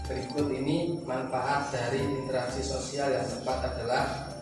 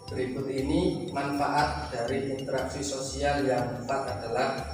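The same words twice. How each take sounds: Both takes have the same delivery.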